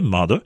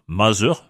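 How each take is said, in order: First: The middle consonant sounds like a d. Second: The middle consonant sounds like a z. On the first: The speaker calls it right. "la bonne prononciation anglaise de ces mots est" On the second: The speaker calls it wrong. "on entend trop souvent un Z alors qu'on attend un D"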